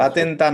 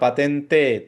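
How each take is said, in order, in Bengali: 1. শব্দটি 'a' স্বরধ্বনি দিয়ে শেষ হয়। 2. শব্দটি 'e' স্বরধ্বনি দিয়ে শেষ হয়। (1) "পাতেন্তা না" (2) "পাতেন্তে বলা হয় এটাকে"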